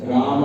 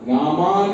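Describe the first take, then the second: First: The final vowel is a short a. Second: The final vowel is drawn out long. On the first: The speaker calls it right. "किंतु अ का अ की ध्वनि आनी चाहिए" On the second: The speaker calls it wrong. "रामा नहीं, बहुत ज्यादा भी नहीं खींचना है"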